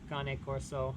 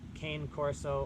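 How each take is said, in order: First: It is said with a put-on foreign accent. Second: It is said plainly, without a foreign accent.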